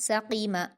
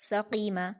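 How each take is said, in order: The two takes are said the same way.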